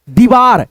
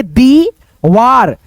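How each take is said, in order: First: Said in the usual way. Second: दीवार with the दी vowel drawn out very long; stretched long ee. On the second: Shown as a demonstration. Teacher dictating दीवार to pupils, long ee stretched out. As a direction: say दीवार slowly, holding the long ee in दी. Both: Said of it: "उच्चारण ... खींच करके होता है".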